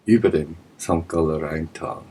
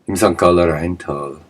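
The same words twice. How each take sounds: First: Über hit first, the rest of the phrase dropping away; stress on über. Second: Said in the usual way. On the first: Shown as a demonstration. Correcting to the army, stress on über. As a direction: correct yourself by leaning on über.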